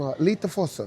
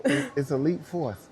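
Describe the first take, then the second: First: "Elite Force" as "lita fos", first vowel dropped, extra vowel after the t, no r; Japanese pronunciation. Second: "Elite Force" said the English way, "uh-leet force" with an r; English pronunciation. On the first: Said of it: "that's how we say it in Japanese". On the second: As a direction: correct her by saying "Elite Force" in plain English. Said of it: "you keep saying Elite Force". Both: Retold or imitated.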